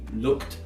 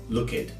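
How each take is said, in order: First: The ending is a short kt sound. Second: The ending is an extra id syllable. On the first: The speaker calls it right. "the correct pronunciation" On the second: The speaker calls it wrong. "you'll often hear some students say"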